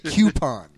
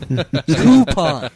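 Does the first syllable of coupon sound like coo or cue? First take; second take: cue; coo. First: The first syllable sounds like cue. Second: The first syllable sounds like coo. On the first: The speaker calls it wrong. "is it spelled C-U-E-P-O-N? Then it would be coupon" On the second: The speaker calls it right. "The root word is coup"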